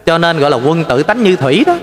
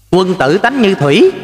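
First: Said in the usual way. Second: Slow solemn recitation of "Quân tử tánh như thủy"; slow recited proverb. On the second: Shown as a demonstration. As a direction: lay out the saying word by word, lifting "thủy" at the end. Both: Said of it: "là sao quý vị".

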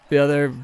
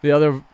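The two takes are said the same way.

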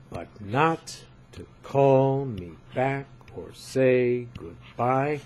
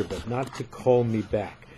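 First: "But not to call me back or say goodbye" with "not", "call", "back", "say", "goodbye" hit and the rest light, slowed; slow metrical reading with "not", "call", "back", "say", "goodbye" stressed; slow scansion stressing not, call, back, say, goodbye. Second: Said in the usual way. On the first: Shown as a demonstration. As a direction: read it slowly, leaning on each stressed beat. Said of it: "These are the stressed syllables". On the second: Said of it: "It goes like this".

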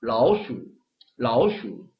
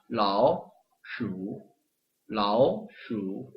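First: "라오" rising smoothly into "슈"; smooth natural "라오슈"; flowing "라오슈"; tone sandhi applied. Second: "라오슈" slow, "라오" dipped separately; awkward "라오슈"; stiff syllable by syllable. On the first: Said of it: "변화를 적용을 시켜가지고". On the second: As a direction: break "라오슈" into pieces. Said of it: "이것도 뜯어서 하면". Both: Shown as a demonstration.

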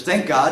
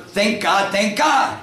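First: Said in the usual way. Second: Raised, higher-pitched call to the horse; louder call. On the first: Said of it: "And he says". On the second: Acted. Man urging his horse on to a trot, louder call. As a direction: call it out a little bit louder. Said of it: "he shouts a little bit louder".

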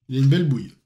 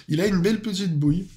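First: Said in the usual way. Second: Laughing while saying it. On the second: Real, not acted. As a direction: chuckle through the words. Repeats compliment, second time laughing.

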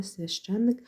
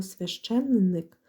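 First: «священник» said with just one н, as «свяще́ник»; quicker «священник», no lengthened н; single н. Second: «священник» drawn out with both н sounded; slowly spell-pronounce «священник» as «священ-ник», two н; double н. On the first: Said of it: "з однією". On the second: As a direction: make both н heard in «священник». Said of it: "пишеться з двома літерами «н»". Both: Shown as a demonstration.

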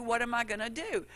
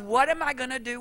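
First: Fading panic. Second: Mock panic. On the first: Retold or imitated. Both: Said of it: "that explosion".

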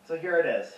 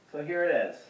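No difference in how they are said.

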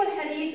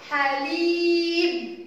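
First: Said in the usual way. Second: حليب very slow with "lii" held high; drawn-out حليب; long vowel. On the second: Shown as a demonstration. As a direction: chant حليب, stretching the ya. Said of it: "صوت طويل".

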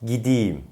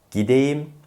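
First: "gideyim" as gi-di-yim, falling; correct spoken form. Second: "gideyim" as gi-de-yim, pitched up; wrong as-spelled pronunciation. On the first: Teacher gives the correction, "gideyim" as gidiyim. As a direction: make the e in "gideyim" an i. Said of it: "doğru telaffuz". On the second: Teacher shows the mistake, "gideyim" with e. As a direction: keep a clear e in "gideyim". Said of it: "Yanlış telaffuz". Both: Shown as a demonstration.

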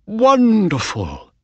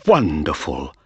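First: High, slow delighted wonderful; overjoyed owner, high and slow. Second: Said in the usual way. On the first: A narrator's reading. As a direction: savour the win, pitch up and drawn out. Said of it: "said Mister Ross".

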